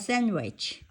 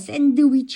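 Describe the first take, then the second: First: The d sound is weakened, almost dropped. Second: The d sound is fully pronounced. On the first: The speaker calls it right. "드 발음 약화해서" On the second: The speaker calls it wrong. "샌드위치 아니고"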